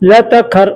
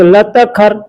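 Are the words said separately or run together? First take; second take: run together; run together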